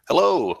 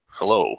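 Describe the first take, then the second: First: It is said in his natural voice. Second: It is said in a put-on character voice.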